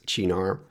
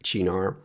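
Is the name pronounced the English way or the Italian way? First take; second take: Italian; Italian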